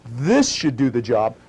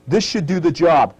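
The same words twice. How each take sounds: First: Said again, slower; slow it down and lay it out; slower repeat. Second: Said in the usual way. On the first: Shown as a demonstration. Instructor repeating for students, slower.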